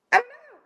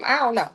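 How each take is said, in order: First: High squeaky I don't know. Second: Said in the usual way. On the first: Shown as a demonstration. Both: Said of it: "repeated in varied tones".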